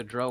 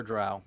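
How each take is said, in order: First: "Drow" rhymed with "grow"; "Drow" pronounced "droh"; pronunciation demo. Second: "Drow" rhymed with "cow"; "Drow" pronounced "drau"; pronunciation demo. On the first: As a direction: say "Drow" with a long O, as in "go". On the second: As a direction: say "Drow" with an OW, as in "now". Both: Shown as a demonstration. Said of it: "you can pronounce it either Drow or Drow".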